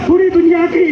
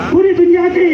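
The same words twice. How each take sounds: The two takes are said the same way.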